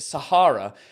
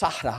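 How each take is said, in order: First: The word is said the usual English way. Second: The word is said the Arabic way. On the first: The speaker calls it wrong. "We pronounce it Sahara because we're twats" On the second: The speaker calls it right. "But I think it's pronounced Sahara or something like that"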